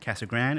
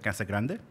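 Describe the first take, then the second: First: The name is said with English-style sounds. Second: The name is said with Spanish-style sounds. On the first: The speaker is a local resident. "even the native Spanish speakers say Casa Grande" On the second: The speaker is a visitor or newcomer. "instead of Casa Grande"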